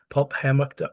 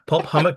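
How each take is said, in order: First: The second word begins with a 'ham' sound. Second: The second word begins with a 'hum' sound. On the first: The speaker calls it wrong. "Want to say hammock" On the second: The speaker calls it right. "You just pronounce it hummock instead of hammock"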